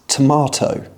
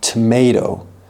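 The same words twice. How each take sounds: First: It is said with a British accent. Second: It is said with an American accent. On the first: "but in the U K, it's tomato" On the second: "in the U S, you're likely to hear tomato"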